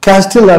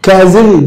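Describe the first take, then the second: First: A t sound is said after the s. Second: The middle has no t sound. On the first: The speaker calls it wrong. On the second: The speaker calls it right.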